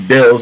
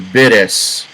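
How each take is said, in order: First: The name is said with a clear L sound. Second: The name is said with a D-like sound. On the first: This is the intended form of the name. "when it's supposed to be Bills" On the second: This is how it sounds from Japanese speakers. "it sounds Bidus"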